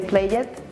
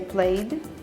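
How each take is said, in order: First: An extra vowel comes before the final D. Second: The word ends in a plain D sound. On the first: The speaker calls it wrong. "You don't need to say played it. It's not necessary" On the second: The speaker calls it right. "you are able to say played"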